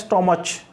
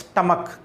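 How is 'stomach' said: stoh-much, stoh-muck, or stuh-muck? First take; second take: stoh-much; stuh-muck. First: It has an 'oh' vowel and ends in 'ch'. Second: It has an 'uh' vowel and ends in 'k'. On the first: The speaker calls it wrong. "कई लोग इसका pronunciation करते हैं स्टोमच" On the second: The speaker calls it right. "प्रोनाउंसिएशन क्या है, स्टमक"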